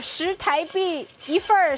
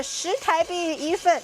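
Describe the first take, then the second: First: "份儿" with retroflex er ending; "一份儿" said Beijing-style with er; erhua. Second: "份" plain, no er ending; "一份" said Taiwanese-style without er; no erhua. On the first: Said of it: "Oh no，not一份儿". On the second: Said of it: "not一份儿". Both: Shown as a demonstration.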